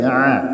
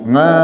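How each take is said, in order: First: The vowel begins in the throat without ng. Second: The vowel begins with a nasal ng sound. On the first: The speaker calls it right. "tapi a, ya, di eh, pangkal tenggorokan" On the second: The speaker calls it wrong. "jangan ngain, nga, jangan"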